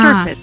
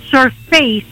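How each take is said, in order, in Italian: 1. La desinenza si pronuncia con una vocale breve e ridotta. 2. La desinenza si pronuncia come la parola 'face'. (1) "invece di surface" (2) "la finale di questa parola c'è la parola face, per cui dicono surface"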